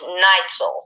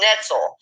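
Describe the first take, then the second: First: The first syllable sounds like 'night'. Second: The first syllable does not sound like 'night'. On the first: The speaker calls it right. "It's Neitzel, like like he put in the comments, Night" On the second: The speaker calls it wrong. "I was calling him Netzel, and it's not"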